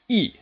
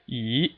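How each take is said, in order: First: The pitch falls sharply from high to low. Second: The pitch rises steadily from start to end. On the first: "a sharp downward striking tone" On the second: "the second tone is just a steadily rising tone"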